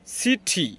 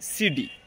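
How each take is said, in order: First: It has a crisp British t sound. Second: It has a soft American d-like sound.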